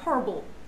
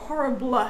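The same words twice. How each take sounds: First: The final vowel is swallowed and silent. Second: The final vowel is clearly pronounced. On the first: The speaker calls it right. "You're like horrible. As if the E doesn't actually exist" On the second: The speaker calls it wrong. "don't say horribly or horrible"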